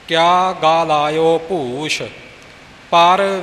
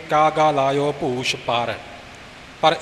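First: The pause falls before the word 'par'. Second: The pause falls after the word 'par'. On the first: The speaker calls it right. "ਇਵੇਂ ਪਾਠ ਹੈ ਜੀ" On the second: The speaker calls it wrong. "ਆਮ ਪਾਠੀ ਪਰ 'ਤੇ ਵਿਸਰਾਮ ਲਾ ਜਾਂਦੇ ਨੇ ... ਇਸ ਤਰ੍ਹਾਂ ਨਹੀਂ"

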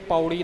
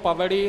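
First: The word is said with an 'au' vowel instead. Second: The word is said with a clear 'v' sound. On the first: The speaker calls it wrong. "ਅਰਥ ਭਾਵੇਂ ਇਹੀ ਹੈ" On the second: The speaker calls it right. "ਪਰ ਜੇ ਉਹ ਅੱਖਰ ਸਤਿਗੁਰਾਂ ਨੇ ਲਿਖੇ ਨੇ ਆਪਾਂ ਉਵੇਂ ਉਚਾਰਨ ਕਰਨਾ ਹੈ ਜੀ"

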